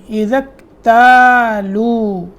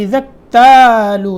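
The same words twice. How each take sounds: First: اکتالو with the ta stretched long, slowly. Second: اکتالو with the ta clipped short; wrong short ta. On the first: Teacher correcting a student, long ta drawn out. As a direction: lengthen the ta in اکتالو. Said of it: "یہ تا کو لمبا کرنا ہے". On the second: Teacher quoting a student's mistake, short ta. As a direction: say اکتالو quickly, no length on the ta. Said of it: "اذا اکتالو نہیں". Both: Shown as a demonstration.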